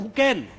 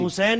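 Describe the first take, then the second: First: The middle consonant is a k sound. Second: The middle consonant is an s sound. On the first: It is meant to sound more modern. The speaker calls it wrong. "लेकिन वो कहते हैं हुकैन, जरा modern लगेगा" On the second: This is the name as the parents gave it. The speaker calls it right. "हुसैन है"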